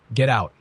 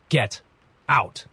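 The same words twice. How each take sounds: First: Higher, louder angry order; forceful, mildly growled command. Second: Higher order broken by a pause; halting, raised-pitch command; trembling. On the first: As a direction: order them out in one angry burst. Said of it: "he growled". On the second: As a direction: force it out word by word, a touch of trembling. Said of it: "his voice trembling". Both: A narrator's reading.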